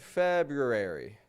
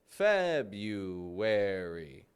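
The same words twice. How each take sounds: First: The R after 'Feb' is clearly pronounced. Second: The R is dropped, replaced by a W-like sound. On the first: The speaker calls it wrong. "we don't want to get February" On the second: The speaker calls it right. "So no R"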